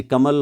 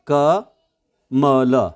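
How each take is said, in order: First: Said in the usual way. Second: कमल very slow, split as क, then मल; syllable by syllable. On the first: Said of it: "आप कैसे बोलेंगे". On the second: Shown as a demonstration. Teacher counting syllables in a name, syllable by syllable. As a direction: stretch कमल out with a gap after क. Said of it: "दो celeb इसमें हैं".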